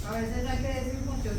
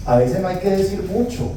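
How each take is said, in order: First: Whispered, almost breath alone; susurro. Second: Said in the usual way. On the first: Shown as a demonstration. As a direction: breathe it as a hushed secret. (dicho en susurro, casi sin voz)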